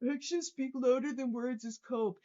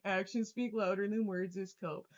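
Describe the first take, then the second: First: Reading a chat message. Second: Scornful quote. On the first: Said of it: "by saying". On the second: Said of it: "Tell me you're ... by saying". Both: Retold or imitated.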